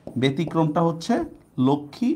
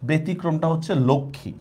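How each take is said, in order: First: ব্যতিক্রমটা drawn out slowly before Lakshmi; slow down to stress the exception Lakshmi; slower emphasis. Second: Said in the usual way. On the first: Shown as a demonstration. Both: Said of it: "এটা ব্যতিক্রম".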